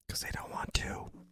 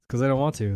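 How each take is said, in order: First: It is said in a whisper. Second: It is said in a normal voice.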